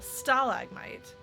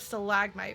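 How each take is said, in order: First: The stress is on the first syllable. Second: The stress is on the second syllable. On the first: This is how it is said in British English. "he emphasized the first syllable" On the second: This is the pronunciation the speaker is used to. "which is what I'm used to"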